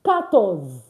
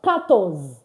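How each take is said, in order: The two takes are said the same way.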